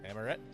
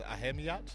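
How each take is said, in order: First: The H sound is silent inside the name. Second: An H sound is pronounced inside the name. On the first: The speaker calls it right. "the H is more silent" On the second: The speaker calls it wrong. "I'm going to say this wrong"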